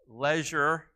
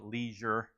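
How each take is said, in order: First: The word is said with a British pronunciation. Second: The word is said with an American pronunciation. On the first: "that's the British pronunciation" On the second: "here in the United States, we call it leisure"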